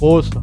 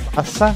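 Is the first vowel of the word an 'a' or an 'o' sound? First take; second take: o; a. First: The first vowel is an o sound. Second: The first vowel is an a sound. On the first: This is the Lower Austrian dialect form. "En Baja Austria dicen osa" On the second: This is the standard form. "basa con A"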